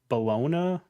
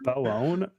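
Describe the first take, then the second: First: The name sounds like the word bologna. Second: The name sounds like bel-lone. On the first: "it's definitely not how you pronounce that" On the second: "I don't know"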